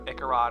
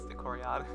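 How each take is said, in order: First: The name is said with three syllables. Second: The name is said with four syllables. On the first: The speaker calls it wrong. "it looks like it'd be like uh" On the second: The speaker calls it right. "but it's Icoriod"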